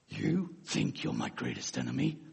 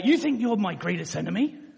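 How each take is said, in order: First: It is said in a put-on Batman voice. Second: It is said in the speaker's normal voice.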